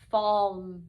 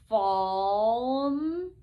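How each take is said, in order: First: The word is said quickly as one unit. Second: The word is blended slowly and drawn out. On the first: "and then fast like a real word" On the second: "I will read it slowly"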